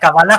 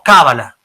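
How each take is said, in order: First: The stress is on the last syllable. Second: The stress is on the first syllable. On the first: The speaker calls it right. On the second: The speaker calls it wrong.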